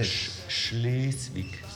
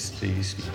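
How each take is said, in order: First: The word starts with a sh sound. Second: The word starts with a plain s sound. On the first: The speaker calls it right. "det hedder Schleswig" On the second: The speaker calls it wrong. "Det hedder ikke Slesvig"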